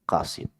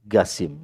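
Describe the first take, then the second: First: The name begins with a deep throat q sound. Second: The name begins with a plain g sound. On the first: This is how it should be said. The speaker calls it right. "mestinya Qasim" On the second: This is how local people say it. The speaker calls it wrong. "Kalau orang sini bilangnya Gasim"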